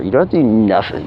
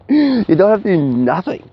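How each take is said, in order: First: Said in the usual way. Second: Laughing through the words. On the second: Real, not acted. Telling viewers no effort is needed, laughing. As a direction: say it while still chuckling. Laughing while making point.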